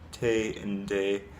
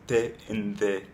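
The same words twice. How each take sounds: First: The tongue tip touches the ridge behind the teeth. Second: The tongue tip touches the upper teeth. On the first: "So in English, it's like te and de" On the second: "but in Spanish, it's like te and de"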